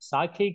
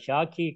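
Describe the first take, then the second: First: The word begins with a plain s sound. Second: The word begins with an sh sound. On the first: The speaker calls it wrong. "సాఖి కాదు" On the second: The speaker calls it right. "షాఖి కదా"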